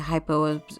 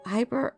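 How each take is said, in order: First: The word ends with an 'o' sound. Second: The word ends with an 'er' sound. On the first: The speaker calls it wrong. "I always say it wrong. I always say hypo" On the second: The speaker calls it right. "So, Hyper Obscura"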